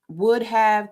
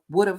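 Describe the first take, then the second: First: It is said as two full separate words. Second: It is said contracted into one short form. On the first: "the words would have" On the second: "shortened sound like would have"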